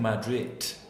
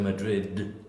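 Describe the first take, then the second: First: The word ends with a T sound. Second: The word ends with a D sound. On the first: The speaker calls it wrong. "you're saying T instead of D" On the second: The speaker calls it right. "instead of"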